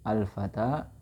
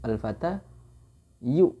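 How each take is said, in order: First: The word ends in a plain long a. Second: The word ends with a full -ayu syllable. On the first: This is the eased form people actually say. "Akhirnya mereka mengatakan al-fata" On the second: This is the original underlying form of the word. "Aslinya itu al-fatayu"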